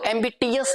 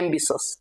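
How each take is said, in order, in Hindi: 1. बीच का व्यंजन 't' ध्वनि है। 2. बीच का व्यंजन 'sh' ध्वनि है। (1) "अब इसको एम्बिटियस नहीं बोलेंगे" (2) "एम्बिशस इसको बोला जाता है"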